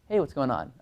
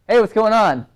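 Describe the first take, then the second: First: It is said at a quiet, normal volume. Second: It is said much louder than normal.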